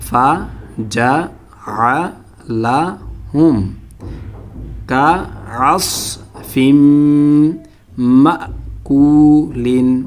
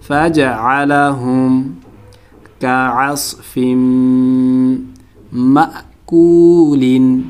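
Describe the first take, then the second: First: The first word is broken into separate syllables. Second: The first word is said smoothly as one unit. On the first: "ভাঙা ভাঙা উচ্চারণ" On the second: "শব্দ শব্দ"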